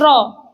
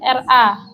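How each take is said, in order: First: The R is thick, with a rounded o-like vowel. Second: The R is thin, with a bright a vowel. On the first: The speaker calls it wrong. "mboten ro" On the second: The speaker calls it right. "Tarkiknya jadi ra"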